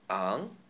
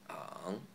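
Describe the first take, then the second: First: It is said in the second tone. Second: It is said in the third tone.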